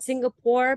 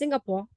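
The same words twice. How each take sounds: First: It is said with standard final consonants. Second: It is said in a Singlish accent, shortened.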